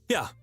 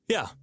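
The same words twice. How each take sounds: Both takes have the same delivery.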